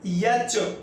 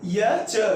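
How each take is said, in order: First: It begins with a 'y' sound before the vowel. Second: It begins with a 'y' sound before the vowel.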